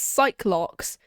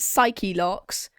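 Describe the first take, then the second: First: The first part is said as 'sike'. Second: The first part is said as 'sigh-key'. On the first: Another character says it this way. "one pronounces it as psych-locks" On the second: One character says it this way. "one of them pronounces it psyche-locks"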